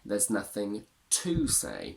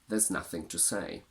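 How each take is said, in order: First: The word 'to' is strong and stressed. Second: The word 'to' is weak and unstressed. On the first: "By stressing to, you create emphasis and a little bit of drama" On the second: "Your reply could simply be"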